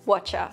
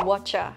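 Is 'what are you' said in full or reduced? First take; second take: reduced; reduced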